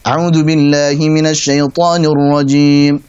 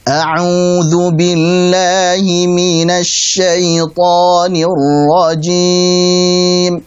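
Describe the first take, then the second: First: The recitation is fast, with short vowels. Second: The recitation is slow, with long drawn vowels. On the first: "Ada yang lebih cepat lagi hadar" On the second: "dua harokatnya yang lambat"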